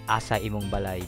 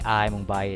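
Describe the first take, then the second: First: The words are said in their full form. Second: The words are clipped into a shortened form. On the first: It is the standard, more formal form. "instead of" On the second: It is casual and informal. "I'd rather say"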